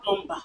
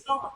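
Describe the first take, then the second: First: "plumber" with the silent B sounded; mispronunciation. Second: Said in the usual way. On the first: Shown as a demonstration. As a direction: say "plumber" as plum-ba, with a B. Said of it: "not plumber". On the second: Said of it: "And then you say plumber".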